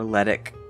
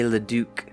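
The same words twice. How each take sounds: First: The name is said with an American-style pronunciation. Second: The name is said with a French-style pronunciation.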